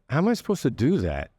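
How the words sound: It is said in a warm, friendly tone. The listener is invited to solve it together. The speaker calls it right. "I'm inviting you to collaborate with me"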